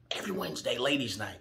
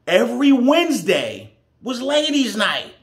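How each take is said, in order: First: Low, soft aside; hushed repeat. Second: Emphatic announcement. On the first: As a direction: drop right down in pitch and volume. Storyteller repeats detail as aside. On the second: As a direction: hit it loud and high for the listener. Storyteller stresses the key detail. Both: Real, not acted.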